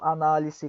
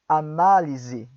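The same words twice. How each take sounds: First: The s between vowels is a hissing s. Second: The s between vowels is a buzzing z. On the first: It sounds like a foreigner speaking Spanish. The speaker calls it wrong. "se vocês não fazem soar como uma abelha, parece que é um estrangeiro falando" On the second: It sounds like Portuguese. The speaker calls it right. "entre duas vogais ... soará como uma abelhinha"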